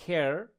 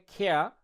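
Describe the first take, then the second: First: "care" American-style, with the final r sounded; American pronunciation. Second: "খেয়া" as British "care", kheh-a with no final r; British pronunciation. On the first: Teacher showing learners American "care", final r pronounced. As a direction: finish "care" on a clear American r. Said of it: "আমেরিকানরা হবে". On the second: Teacher showing learners British "care" as "খেয়া", r dropped. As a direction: say "খেয়া" British-style, ending on an open vowel. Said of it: "British English কিন্তু উচ্চারণটা হবে". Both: Shown as a demonstration.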